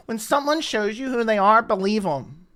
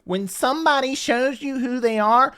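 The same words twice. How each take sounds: First: Sneering mock quote. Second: Mocking Dana's line. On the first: Vlogger mocking Dana's favorite quote, sneering. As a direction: repeat the line back with mocking scorn. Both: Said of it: "why don't you put that quote up".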